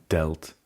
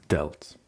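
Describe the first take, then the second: No difference in how they are said.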